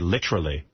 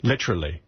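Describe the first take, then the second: First: It is said in a put-on British-sounding accent. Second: It is said in a put-on British-sounding accent.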